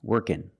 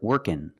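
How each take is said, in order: Both takes have the same delivery.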